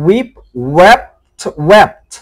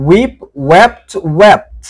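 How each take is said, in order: Both takes have the same delivery.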